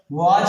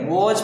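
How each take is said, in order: First: Put-on old wrong "वॉच", said "waach". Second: Rounded O in "वॉच", not AA. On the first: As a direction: open AA vowel in "वॉच". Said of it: "पढ़ते थे अभी तक". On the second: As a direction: say "वॉच" as "wawch". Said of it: "ओ ई का उच्चारण करेंगे". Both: Shown as a demonstration.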